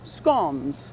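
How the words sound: It is said the way Australians say it.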